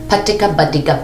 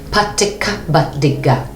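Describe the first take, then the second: First: It is said at a faster pace. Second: It is said at a slower pace.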